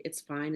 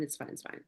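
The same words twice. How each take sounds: First: Said in the usual way. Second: Whispered, brushing it off; dismissive whisper. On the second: Retold or imitated. To her sister at dawn, a half-asleep whisper. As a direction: hush it away as nothing. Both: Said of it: "Ellie, like, it's fine".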